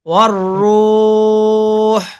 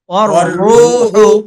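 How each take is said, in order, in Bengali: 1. দীর্ঘ স্বরটি টেনে বলা হয় এবং শেষের স্বরটি বাদ যায়। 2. দীর্ঘ স্বরটি ছোট হয় এবং শেষের স্বরটি উচ্চারণ করা হয়। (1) "ওয়াকফ করলে" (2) "এখানে অক্ফ না করলে এক আলিফ"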